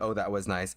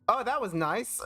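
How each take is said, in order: First: It sounds mean and cutting. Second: It sounds playful and teasing.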